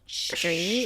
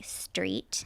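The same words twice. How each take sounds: First: The word begins with an sh-like sound. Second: The word begins with a plain s sound. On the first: "I don't say my T's properly. I say like street, like sh- street" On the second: "not like street"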